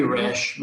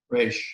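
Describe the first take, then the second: First: Resh with a short open E. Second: Resh with a long A, like "raysh". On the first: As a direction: say Resh to rhyme with "mesh". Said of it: "It could be Resh". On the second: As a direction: stretch the E of Resh towards "ay". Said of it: "more of like a long A sound". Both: Shown as a demonstration.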